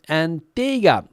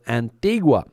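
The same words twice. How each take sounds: First: The name is pronounced the English way. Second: The name is pronounced the Spanish way.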